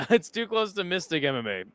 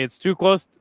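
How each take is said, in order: First: Laughing. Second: Said in the usual way. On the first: Real, not acted.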